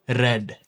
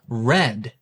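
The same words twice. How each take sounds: First: The R is tapped lightly with the tongue. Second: The R is an untapped, approximant R.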